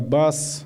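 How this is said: The word ends with an s sound. This is the standard literary Nogai form. "Замена общеногайского «с» на «ш»"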